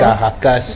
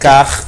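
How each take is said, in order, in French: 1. Un son « a » vient après le r. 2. Aucun son de voyelle ne vient après le r. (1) "je ne sais pas où est-ce qu'on a trouvé un A pour ajouter" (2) "le mot c'est carcasse"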